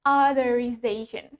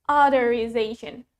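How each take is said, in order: The two takes are said the same way.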